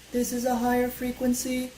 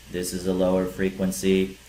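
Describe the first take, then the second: First: Sustained high monotone demo note; higher pitch. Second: Low monotone demo note; lower pitch. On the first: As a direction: hold every word on one very high note. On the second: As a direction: hold every word on one steady low note. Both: Shown as a demonstration.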